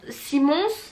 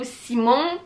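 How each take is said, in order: First: The name ends with an S sound. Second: The name ends without an S sound. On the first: The speaker calls it right. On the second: The speaker calls it wrong.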